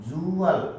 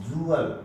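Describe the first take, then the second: The two takes are said the same way.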